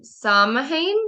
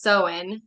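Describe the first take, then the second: First: Samhain sounded out slowly as spelled, SAM-hayn; mistaken pronunciation. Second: Samhain said SOW-in, the M and H not sounded; corrected pronunciation. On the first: Reader guessing at an unfamiliar festival name, Samhain mispronounced as spelled. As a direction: say Samhain slowly and tentatively, with the M and H heard. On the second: Reader correcting herself on the festival name, Samhain pronounced SOW-in. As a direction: say Samhain as two syllables, SOW-in. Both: Real, not acted. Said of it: "actually, it's pronounced Samhain".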